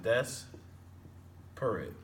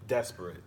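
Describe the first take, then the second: First: "des-perate" with stressed "des", long pause, lighter "perate"; syllables split apart. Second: Said in the usual way. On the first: Shown as a demonstration. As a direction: break "des-perate" very slowly after the first syllable. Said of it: "The first part of the word is stressed". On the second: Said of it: "an example of that would be desperate".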